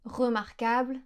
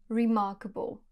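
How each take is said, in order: First: Remarquable said in French, re-mar-kabl; French pronunciation. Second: Remarkable said in English, stress on mar; English pronunciation. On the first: Teacher showing the French Remarquable before the English. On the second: Teacher showing the English remarkable after the French. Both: Shown as a demonstration. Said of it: "Par exemple".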